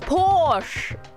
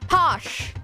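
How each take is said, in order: First: The word is said with an r sound. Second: The word is said without an r sound.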